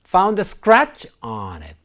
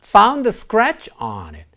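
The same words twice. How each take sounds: Both takes have the same delivery.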